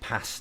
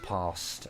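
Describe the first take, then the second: First: It is said with an American-sounding vowel. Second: It is said with a Southern British vowel. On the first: The speaker calls it wrong. "they'll say like past" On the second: The speaker calls it right. "instead of past"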